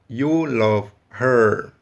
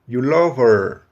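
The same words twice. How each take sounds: First: The h of her is clearly pronounced. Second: The h of her is silent.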